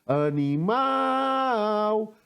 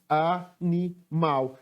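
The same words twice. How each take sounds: First: "Animal" called out, MAL long and high; chamando a palavra. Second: "animal" slowly in three separate syllables; separando sílabas. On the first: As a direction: stretch and lift the last syllable of "Animal". ("Animal" com o MAL bem alongado e agudo) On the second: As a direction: break "animal" into even beats with small pauses. ("animal" pausado, sílaba por sílaba) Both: Shown as a demonstration. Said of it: "Sílaba que eu pronunciei com mais força".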